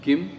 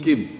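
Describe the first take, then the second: The two takes are said the same way.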